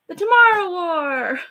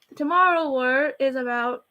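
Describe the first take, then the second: First: Big loud title call, pitched up; excited announcement. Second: Said in the usual way. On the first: Acted. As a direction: announce the movie title like a trailer. Announcing the video's topic.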